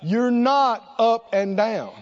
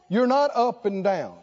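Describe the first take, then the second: First: It is said very slowly. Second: It is said at normal speed.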